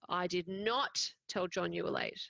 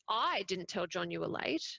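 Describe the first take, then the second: First: The word "not" carries the main stress. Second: The word "I" carries the main stress. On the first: The telling never happened. "this didn't happen" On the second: Someone else told John. "Someone else told John you were late"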